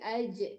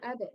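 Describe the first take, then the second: First: The middle consonant is a j sound. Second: The middle consonant is a d sound. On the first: The speaker calls it right. "tapi aja, Jim yang mati ya" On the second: The speaker calls it wrong. "bukan ada"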